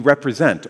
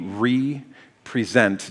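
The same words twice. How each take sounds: First: The word is said at a normal pace. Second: The word is said slowly, syllable by syllable.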